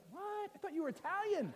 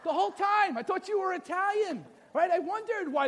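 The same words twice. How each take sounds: First: High, hushed disbelief; hammed-up astonished husband; mock shock. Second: High, full-voiced astonishment; big hammed-up indignant surprise; mock outraged disbelief. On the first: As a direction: squeak it softly in stunned surprise. Husband acting shocked at wife's reveal. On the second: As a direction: exclaim it like a betrayed husband. Husband repeats his shock, played bigger.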